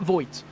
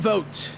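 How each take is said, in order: First: The vowel sounds like 'oy' as in boy. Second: The vowel sounds like 'oh' as in vote. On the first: The speaker calls it wrong. "not Voigt" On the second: The speaker calls it right. "Vote is how they pronounce the driver of the twenty-two's last name"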